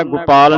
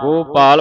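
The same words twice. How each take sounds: First: ਗੋਪਾਲ as 'gu-paal'; wrong short u. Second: ਗੋਪਾਲ as 'GO-paal', full o; correct long o. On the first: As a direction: shorten the first vowel of ਗੋਪਾਲ to u. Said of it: "ਗੋਪਾਲ ਨਹੀਂ ਪੜ੍ਹਨਾ". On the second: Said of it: "ਗੋਪਾਲ ਪੜ੍ਹਨਾ". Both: Shown as a demonstration.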